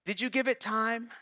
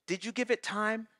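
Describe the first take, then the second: No difference in how they are said.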